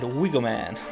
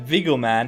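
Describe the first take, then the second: First: The name begins with a W sound. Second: The name begins with a V sound. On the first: The speaker calls it wrong. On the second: The speaker calls it right.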